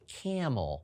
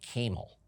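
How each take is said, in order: First: The first A is a short vowel. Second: The first A is a long vowel. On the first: The speaker calls it right. "the tricky A gets closed off by that consonant C and consonant M" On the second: The speaker calls it wrong. "I don't think I've ever heard of anybody riding a camel"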